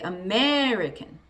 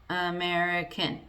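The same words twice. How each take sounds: First: One syllable is loud, others short and quiet. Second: Every syllable is equally loud and long. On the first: The speaker calls it right. "But instead, we say" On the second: The speaker calls it wrong. "If we didn't do that, we would say"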